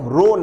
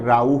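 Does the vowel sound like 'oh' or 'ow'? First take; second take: oh; ow. First: The vowel sounds like 'oh'. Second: The vowel sounds like 'ow'. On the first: The speaker calls it wrong. "रो नहीं" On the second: The speaker calls it right. "राउ होगा"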